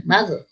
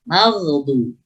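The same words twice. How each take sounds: First: "magh-" stopped short on the gh; "magh-" without any lingering friction; ghain cut off. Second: "maghdu-" with the gh allowed to flow; "maghdu-" with continuous throat friction on gh; flowing ghain. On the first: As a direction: break off abruptly after "magh-". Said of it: "tidak boleh". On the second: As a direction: hold the gh in "maghdu-" before moving to "du". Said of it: "harus rukhawah". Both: Shown as a demonstration.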